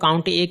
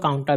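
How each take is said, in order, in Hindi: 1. A को एक अलग अक्षर की तरह बोला जाता है। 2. A एक ही शब्द में मिला हुआ है। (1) "कुछ लोग इसको काउंट ए कहते हैं" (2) "कुछ लोग काउंटा भी कहते हैं"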